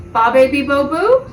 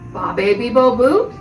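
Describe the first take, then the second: First: The pitch rises at the end. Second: The same.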